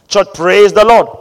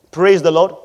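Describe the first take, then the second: First: Louder, demanding praise the Lord; rally the congregation louder; louder call to the church. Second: Said in the usual way. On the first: Shown as a demonstration. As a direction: call the church to answer back. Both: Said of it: "I am saying it again".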